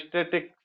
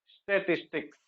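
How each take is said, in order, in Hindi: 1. बीच का अक्षर शब्द से छोड़ दिया जाता है। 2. बीच का अक्षर शब्द में रखा जाता है। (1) "हम लोग जनरली अपनी लैंग्वेज में इसको स्टेट्स या स्टेटिक्स ऐसे कहते हैं" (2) "सही शब्द ये है"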